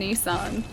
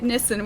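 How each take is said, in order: First: The name is said in a different accent. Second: The name is said in the speaker's usual accent. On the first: This is how other people say it. "We don't say Nissan" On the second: This is how the speaker's people say it. "we say it like we say it Nissan"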